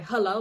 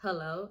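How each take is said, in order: First: Loud, irritated hello. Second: Said in the usual way. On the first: Retold or imitated. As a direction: answer the phone clearly annoyed. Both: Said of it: "in an irritated voice".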